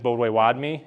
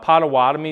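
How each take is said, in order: First: It is said with the native pronunciation. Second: It is said with an English pronunciation. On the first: This is the people's own name. The speaker calls it right. "what our actual name is" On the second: This is the name outsiders gave. The speaker calls it wrong. "English anglicization of it"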